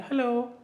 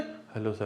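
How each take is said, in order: First: It is said in a high-pitched voice. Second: It is said in a deep, low-pitched voice.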